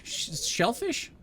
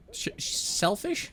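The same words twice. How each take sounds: First: Slow, higher "shellfish?" with a SH start; testing the pun. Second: Slow, questioning "selfish", with a plain S; testing the pun. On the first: Reader puzzling over a missed pun, "shellfish" slowly questioned with SH. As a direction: draw out "shellfish" as a question, SH up front. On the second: Reader puzzling over a missed pun, "selfish" slowly questioned with S. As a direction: draw out "selfish" as a question, S at the start. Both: Shown as a demonstration.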